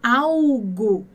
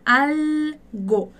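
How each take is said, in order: First: The L sounds like a U vowel. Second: The L is a clear consonant with the tongue raised. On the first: The speaker calls it wrong. "A gente não fala algo, igual a gente fala" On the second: The speaker calls it right. "a sua língua vai ficar presa ali no céu da boca"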